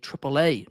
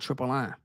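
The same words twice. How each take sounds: First: It is pronounced with English sounds. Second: It is pronounced with Spanish sounds. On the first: This is the official name used in America. "in America, it is now officially" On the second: This is the original name no longer used in America.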